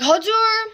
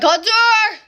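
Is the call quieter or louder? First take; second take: quieter; louder. First: The name is called at normal volume. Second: The name is yelled more loudly.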